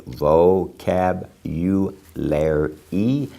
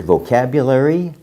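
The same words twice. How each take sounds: First: "vocab, u, lair e" in evenly separated syllables; phonetic pronunciation. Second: Said in the usual way. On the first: Shown as a demonstration. Teacher modelling for students, "vocab, u, lair e" broken syllable by syllable. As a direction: sound out "vocab, u, lair e" piece by piece, each syllable its own word. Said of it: "if you pronounce it that way". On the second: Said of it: "If you pronounce it vocab".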